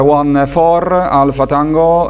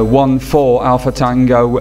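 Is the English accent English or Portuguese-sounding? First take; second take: Portuguese-sounding; English. First: It is said with a Portuguese-style English accent. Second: It is said with a plain English accent.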